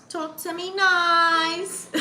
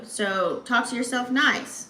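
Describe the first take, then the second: First: High, drawn-out playful croon; playful drawl. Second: Said in the usual way. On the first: Pretend. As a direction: stretch it out high, teasingly. Playful echo of her advice.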